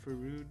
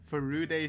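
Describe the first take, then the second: First: The name ends clipped, without a final vowel. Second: The name ends with a full final vowel. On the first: The speaker calls it wrong. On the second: The speaker calls it right.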